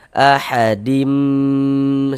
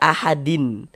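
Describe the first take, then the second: First: The word ends in a long nasal m sound. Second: The word ends in a plain n sound. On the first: The speaker calls it right. "seperti itu" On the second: The speaker calls it wrong. "jangan dibaca ahadin"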